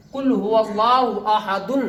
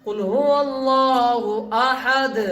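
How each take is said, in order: First: अहदुन said with the full "-dun" ending; unpaused ending on अहदुन. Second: Slow chant, long हुवल्लाहु, अहद closed on a bare d; stopping on अहद. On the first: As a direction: read through to a voiced "un" in अहदुन, without stopping on d. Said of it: "ऐसे नहीं पढ़ना है". (अहदुन में आख़िर का "दुन" पूरा बोलते हुए) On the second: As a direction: drop the "un", halt अहद on the d sound. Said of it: "बल्कि रुकना कैसे है". (धीमी तिलावत, अहद पर दाल की आवाज़ से रुकना) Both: Shown as a demonstration.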